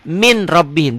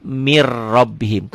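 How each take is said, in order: First: MIN with a clear N before RABBIHIM; written form with N. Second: MIR RABBIHIM with long rolled double R; N merged into R. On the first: Teacher showing learners the spelling, MIN with sounded N. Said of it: "ada N-nya". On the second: Teacher showing how it is read, slow rolled MIR RABBIHIM. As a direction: drop the N, roll MIR into RABBIHIM. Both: Shown as a demonstration.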